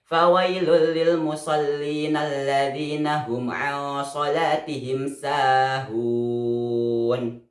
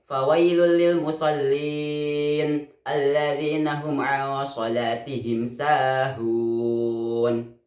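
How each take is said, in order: First: The reciter runs on without stopping. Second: The reciter stops after 'lil musallin'. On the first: Hell is for those heedless of their prayer. The speaker calls it right. "harus disambung dengan ayat berikutnya" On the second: Hell is for those who pray. The speaker calls it wrong. "Contoh wakob pada kata lil musallin itu disebut dengan wakob gobeh dan tidak diperbolehkan"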